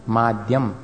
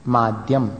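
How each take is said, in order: The two takes are said the same way.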